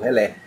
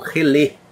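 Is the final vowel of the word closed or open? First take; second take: open; closed. First: The final vowel is an open e. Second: The final vowel is a closed e. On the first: This form comes from French. "em francês, trouxe esse tipo de pronúncia aqui para o Brasil" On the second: This form comes from English. "como se fosse com acento circunflexo"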